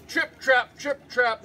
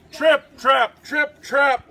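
First: Little hoof steps. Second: Loud, stomping trip-trap; big hoof steps. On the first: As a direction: sound out small hooves trotting. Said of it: "went his little hoofs". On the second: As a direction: pound out each word like heavy hooves. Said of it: "went his big hooves". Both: A narrator's reading.

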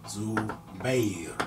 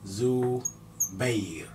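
First: Said in the usual way. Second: زبير whispered slowly; softly whispered زبير. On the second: Shown as a demonstration. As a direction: whisper زبير to yourself while writing.

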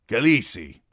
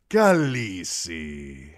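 First: Jhogo's call. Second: Drawn-out, loud and slow Khaleesi, KAL-ee-see; Daario's cry. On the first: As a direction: call out Khaleesi with a stretched falling KHA-lee-see. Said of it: "said Jogo". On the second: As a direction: savour the word like a flatterer calling her. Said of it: "he cried". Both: A narrator's reading.

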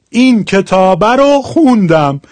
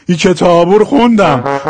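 First: Said in the usual way. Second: Shirazi ending, u in کتابو; Shirazi accent. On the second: Shown as a demonstration. (کتابو با لهجهٔ شیرازی) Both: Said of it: "حال شیرازیش".

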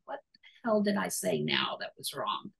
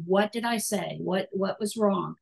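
First: Hushed anxious whisper to herself; soft whispered inner worry; whispered worried thought. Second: Said in the usual way. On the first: Retold or imitated. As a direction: whisper it like a private panic. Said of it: "And I'm thinking". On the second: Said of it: "that's your inner voice saying".

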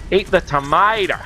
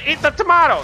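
First: "tomato" as tuh-MY-da; corrected pronunciation. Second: "tomato" with an ah vowel and a clear t; wrong pronunciation. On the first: Shown as a demonstration. Telling the panda to eat, "tomato" said tuh-MY-da. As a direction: say "tomato" with a broad MY and a d for the last t. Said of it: "I should have said tomato". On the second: Real, not acted. Gamer urging the panda, "tomato" said to-MAH-toe. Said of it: "it's because I said it wrong".

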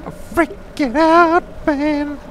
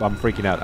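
First: High, loud, stretched freak-out; mock panic. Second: Said in the usual way. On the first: Player admitting they're freaking out, shrill mock panic. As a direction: squeal it in hammed-up panic.

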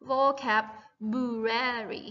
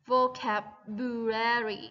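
First: Vocabulary said very slowly, each syllable clear; careful pronunciation. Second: Said in the usual way. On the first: Shown as a demonstration. Teacher showing students how to say vocabulary, slowly. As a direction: spell out vocabulary by sound, syllable by syllable. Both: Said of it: "ออกเสียงว่า".

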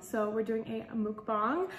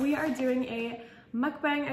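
First: "mukbang" said as "mook-bahng", oo and open ah; "mukbang" with rounded oo and broad ah, rising; corrected pronunciation. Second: "mukbang" said as "muck-bang", short u and flat a; "mukbang" with a muck vowel and bang ending; first pronunciation. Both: Shown as a demonstration. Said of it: "it's actually pronounced mukbang".

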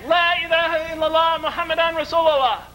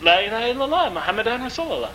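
First: High, sustained cry of faith; retold shout. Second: Moderately raised, restrained recitation; retold first response. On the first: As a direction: call it out high to a whole quarrelling room. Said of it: "he shouted it again". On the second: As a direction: repeat it obediently, well short of a shout. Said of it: "I said".

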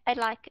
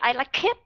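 First: "I like" with a soft, barely released K; light ending K. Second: "I like it" with a hard K bursting into "it"; wrong heavy linking. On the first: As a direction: let the K of "like" go lightly. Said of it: "thì các bạn phải nối nhẹ". ("I like" âm K cuối thật nhẹ) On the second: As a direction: show the mistake, "it" becoming "kit". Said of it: "đừng có bao giờ". ("I like it" nối âm K mạnh thành "kit") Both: Shown as a demonstration.

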